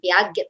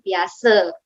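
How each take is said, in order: First: The name ends with a hard 'get' sound. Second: The name ends with a soft 'se' sound. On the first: The speaker calls it wrong. "bacanya bukan Piaget" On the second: The speaker calls it right. "tapi Piase"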